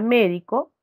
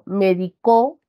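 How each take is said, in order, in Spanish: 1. El acento está en la primera sílaba. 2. El acento está en la última sílaba. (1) "la mayor fuerza de voz está en esta sílaba, última, penúltima, antepenúltima" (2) "este acento que recae en la última de sus sílabas"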